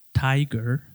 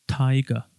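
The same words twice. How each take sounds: First: Tiger with a clear American R at the end. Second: Taiga, R dropped, ending on a schwa; British schwa. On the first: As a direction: say tiger ending in a hard R. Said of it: "se escucha la R bastante claro". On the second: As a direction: say Taiga with no R, final uh. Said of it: "tenemos el siguiente sonido". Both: Shown as a demonstration.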